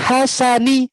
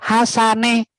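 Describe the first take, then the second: First: The final vowel is a clear i sound. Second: The final vowel is not a clear i. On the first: The speaker calls it right. "didengarkan onni" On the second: The speaker calls it wrong. "Anaknya masih hasane. Nah, berarti salah posisi pengucapan hurufnya"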